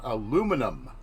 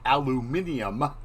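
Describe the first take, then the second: First: The word is said with four syllables. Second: The word is said with five syllables. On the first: The speaker calls it right. "we're going to talk about aluminum" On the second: The speaker calls it wrong. "Everyone calls it that and it's not correct"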